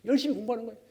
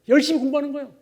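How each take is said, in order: First: Said in the usual way. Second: 열심히 said high and loud; stress on 열심히. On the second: Real, not acted. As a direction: hammer the word 열심히.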